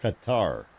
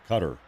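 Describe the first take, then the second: First: "Qatar" said kuh-TAR, stress on the second syllable; "Qatar" ending in a long TAR. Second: "Qatar" said CUT-er, stress on the first syllable; "Qatar" with a short r-coloured ending, like "cutter". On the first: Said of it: "Not guitar". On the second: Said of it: "Some people say Qatar". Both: Shown as a demonstration.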